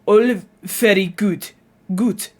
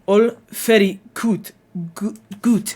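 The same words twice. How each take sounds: First: Slow Dutch accent, very said as fairy; Dutch accent practice. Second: Slow, very as fairy and good as goot; Dutch accent practice. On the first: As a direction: say very like fairy, slowly. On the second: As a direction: drill it like a Dutch learner. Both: Shown as a demonstration. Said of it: "the V in very becomes an F".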